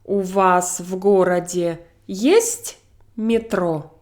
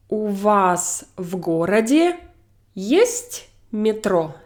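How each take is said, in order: First: Slow, есть raised high in the question; question stress on есть. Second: Есть stressed, question tune peaks on есть. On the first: Teacher repeats question slowly, voice up on есть. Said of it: "where I raise my voice really high". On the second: Teacher modelling a question, stress on есть. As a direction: lean on есть to ask. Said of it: "my logical emphasis here is". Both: Shown as a demonstration.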